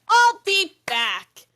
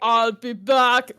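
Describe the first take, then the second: First: It is said in a natural voice. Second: It is said in a put-on impression voice.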